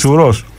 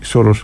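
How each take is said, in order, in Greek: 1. Το πρώτο φωνήεν ακούγεται σαν u. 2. Το πρώτο φωνήεν ακούγεται σαν o. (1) "Λέμε σουρός" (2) "όχι σωρός"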